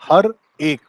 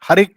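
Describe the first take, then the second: First: The two words are said separately. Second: The two words run together as one. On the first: "उसने ऐसे नहीं गाया इसको कि हर एक" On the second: "हर एक कर दिया है उसे। ... एक ही मात्रा जाके रे पे चढ़ गई।"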